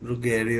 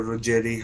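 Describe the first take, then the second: First: "Ruggeri" with a hard g, roo-GHEH-ree; hard-g pronunciation. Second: "Ruggeri" with a soft g, roo-JEH-ree; soft-g pronunciation. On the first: Commentator offering one reading of Ruggeri, hard g. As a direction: say "Ruggeri" with g as in get. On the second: Commentator offering the other reading of Ruggeri, soft g. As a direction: say "Ruggeri" with g as in gem. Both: Shown as a demonstration. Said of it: "however you want to pronounce it".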